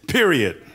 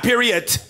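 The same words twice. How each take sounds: First: The word ends plainly without a T sound. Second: The word ends with an added T sound. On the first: The speaker calls it right. "I'm too much a man to put a T at the end of my period" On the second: The speaker calls it wrong. "Not period"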